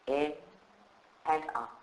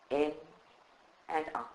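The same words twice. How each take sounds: The two takes are said the same way.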